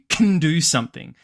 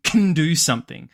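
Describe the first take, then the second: First: The word can shrinks to a k and tiny n. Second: The same.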